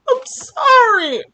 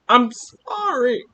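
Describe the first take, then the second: First: It is said in a tearful, crying voice. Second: It is said in a plain, normal voice.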